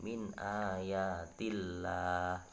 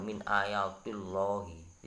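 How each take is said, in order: First: Min ayatillah with a light, thin lam, drawn out very slowly; thin Allah. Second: Min ayatillahi wrongly read with a thick, dark lam; wrong heavy Allah. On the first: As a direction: recite it correctly with tarqiq. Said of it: "tapi dibaca tipis". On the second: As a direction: show the mistake slowly. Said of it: "itu keliru". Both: Shown as a demonstration.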